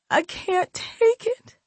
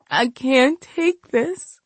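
First: Whimpering. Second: Slow, broken, high voice; tearful despair. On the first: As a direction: let it fade into a whimper. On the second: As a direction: let it crack in despair. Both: Acted. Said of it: "She continued the pity party".

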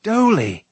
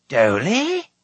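First: High, loud exclamation; sharp falling shout of surprise; astonished cry. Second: High, rising question; incredulous upward squeak; astonished echo. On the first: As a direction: cry out the name to a long-lost friend. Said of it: "Taran cried". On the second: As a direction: echo it in sheer disbelief. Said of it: "echoed the astonished bard". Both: A narrator's reading.

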